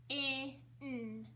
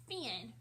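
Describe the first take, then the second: First: "F-I-N" as separate sounds fff, short i, nnn, not letter names; sounded out. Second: Said in the usual way. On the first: Shown as a demonstration. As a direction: stretch each sound of "F-I-N" with gaps between. Teacher breaks word into sounds.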